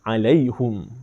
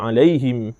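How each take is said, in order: First: The word ends with the sound hum. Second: The word ends with the sound him. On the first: This follows the Khalaf reading from Imam Hamzah. "dia baca dengan 'alaihum" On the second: This follows the Hafs reading from Imam Asim. "kita baca 'alaihim"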